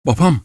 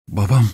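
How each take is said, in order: First: High, startled cry; cried out. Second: Understated emotional call; a touch of heartbreak, restrained; heartrending emotion. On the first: Daughter sees her lost father enter, crying out. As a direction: exclaim it sharply, pitched up. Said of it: "diye bağırdı Geronte". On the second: Daughter calls her dazed father back, mildly heartrending. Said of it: "yürek parçalayıcı bir heyecanla söyledi". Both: A narrator's reading.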